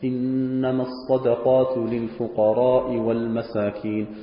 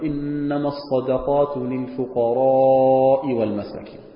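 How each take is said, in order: First: The long vowel in fuqara is kept short. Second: The long vowel in fuqara is drawn out. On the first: "Das Wort فقراء habe ich kurz gesagt" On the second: "Länger machen"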